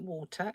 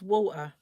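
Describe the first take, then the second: First: "water" with the t clearly sounded; standard "water". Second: "water" with the t dropped to a glottal stop; rough childhood accent. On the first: Correcting childhood speech, "water" with a sounded t. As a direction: say "water" with a crisp t in the middle. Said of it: "it was water". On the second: Recalling how they spoke as a child, "water" without its t. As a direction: say "water" as wa'er, London style. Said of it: "kind of rough around the edges". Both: Shown as a demonstration.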